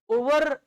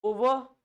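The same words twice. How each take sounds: First: "ओवर" with an overdone final R; full R. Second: "ओवर" with a dropped final R; correct pronunciation. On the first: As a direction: say "ओवर" as o-varrr. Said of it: "ऐसा नहीं होता". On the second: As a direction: say "ओवर" as o-vuh. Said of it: "आर का तो हम आधा ही उच्चारण". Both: Shown as a demonstration.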